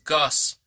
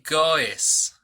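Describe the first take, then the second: First: The ending of the word sounds natural. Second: The ending of the word is exaggerated. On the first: "La pronunciación correcta es goes" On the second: "lo estoy enfatizando para que te des cuenta"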